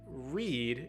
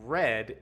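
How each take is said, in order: First: The vowel is long, like 'reed'. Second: The vowel is short, like 'red'. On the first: It is the present tense. "if you're reading something, is the present tense" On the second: It is the past tense. "is the past tense. Same sound as the color red"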